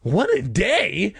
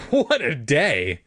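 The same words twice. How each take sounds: First: High, stretched incredulous squawk; acted shrill outrage, drawn out; shrill cry. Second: Slow, drawn-out weary exclamation; acted long-suffering delivery, stretched out; sighing exasperation. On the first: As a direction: echo it back in shrill indignation. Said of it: "I cried shrilly". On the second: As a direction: sigh it out, mildly exasperated. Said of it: "She sighed and shook her head". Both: A narrator's reading.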